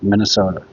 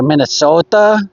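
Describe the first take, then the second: First: Minnesota. said evenly with no push on the end, falling; a relaxed local Minnesota. that falls away. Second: Minnesota? with the stress pushed onto the end, -SOTA, in a rising question; the caller's Minnesota? with the end stressed; caller's wrong Minnesota. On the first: Shown as a demonstration. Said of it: "We don't say it like that". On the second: Retold or imitated. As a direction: imitate an outsider leaning hard on the last part of Minnesota?. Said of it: "you don't gotta put the emphasis on, on the end".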